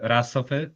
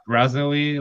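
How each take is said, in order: First: The name is said with Polish pronunciation. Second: The name is said with English pronunciation. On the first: "in Polish it's uh" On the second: "like you pronounce it in English with the R"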